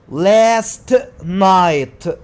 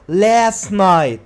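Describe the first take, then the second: First: The T sound in last is pronounced. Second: The T sound in last is dropped.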